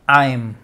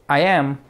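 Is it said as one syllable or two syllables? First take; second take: one syllable; two syllables. First: It is said as one contracted syllable. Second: It is said as two separate syllables.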